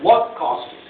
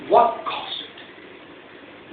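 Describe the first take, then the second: First: Said in the usual way. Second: Drawn-out question. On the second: Shown as a demonstration. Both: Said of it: "rhetorical question twice".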